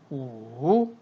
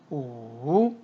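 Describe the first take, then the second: First: The pitch dips low then rises. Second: The pitch dips low then rises.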